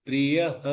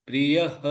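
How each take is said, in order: Both takes have the same delivery.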